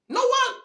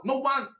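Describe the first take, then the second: First: No one. cried out high in disbelief; indignant high cry. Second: Said in the usual way. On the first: Real, not acted. Ranting about Southwest people, indignant high cry. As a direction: jump way up and hit No one. with outrage.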